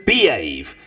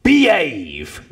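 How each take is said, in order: First: "behave" with its h dropped, falling. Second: "Behave" said without the h, like 'ave at the end; dropped H. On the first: Heckler repeating at the minister, "behave" without h. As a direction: say "behave" with no h, clipped to 'ave. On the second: Heckler pointing at a minister, "Behave" with no H. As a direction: drop the h in "Behave", a short falling call. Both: Retold or imitated. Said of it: "with no H".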